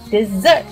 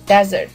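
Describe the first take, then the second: First: The stress is on the second syllable. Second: The stress is on the first syllable.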